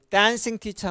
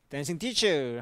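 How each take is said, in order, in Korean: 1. 강세는 dancing이라는 단어에 있어요. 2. 강세는 teacher라는 단어에 있어요. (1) "동명사일 때는 여기가 강세가 있고 댄싱 티처 하면 동명사예요" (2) "춤을 추고 있는 쌤 할 때는 현재 분사다"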